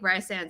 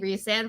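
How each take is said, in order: First: The first syllable sounds like 'rye'. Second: The first syllable sounds like 'ree'. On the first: This is the pronunciation the fans prefer. "I think Rysand sounds better" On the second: This is the supposedly official pronunciation. "It's supposedly Resand"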